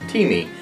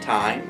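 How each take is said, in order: First: It sounds like two syllables, tee-mee. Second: It rhymes with the word dime. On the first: The speaker calls it right. "it is pronounced T-me, like in a cup of tea and, well, me" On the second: The speaker calls it wrong. "I was calling it time"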